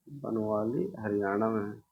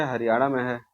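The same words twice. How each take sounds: First: Says Banawali Haryana में है slowly and softly for notes; teacher's slow dictation; slow, quiet repeat. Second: Said in the usual way. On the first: Shown as a demonstration. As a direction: spell out the answer for students to write.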